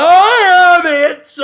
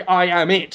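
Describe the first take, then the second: First: Very high, loud, drawn-out yell; in-your-face shout. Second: Said in the usual way. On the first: Acted. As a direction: holler it slowly into a stranger's face. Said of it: "Like that". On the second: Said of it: "you just say".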